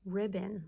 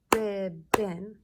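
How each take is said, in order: First: Said in the usual way. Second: "Ribbon" in two loud, separate beats; syllable by syllable. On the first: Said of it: "Let's clap out the syllables". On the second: Shown as a demonstration. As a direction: clap out "Ribbon" as RIB, BON. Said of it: "clap out the syllables for ribbon".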